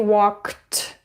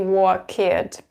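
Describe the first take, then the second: First: The ending is a short t sound. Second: The ending is an extra id syllable. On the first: The speaker calls it right. "but I say walked" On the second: The speaker calls it wrong. "I don't say walked"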